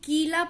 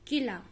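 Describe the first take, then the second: First: The first vowel is drawn out long. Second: The first vowel is said short and quick. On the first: The speaker calls it wrong. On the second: The speaker calls it right.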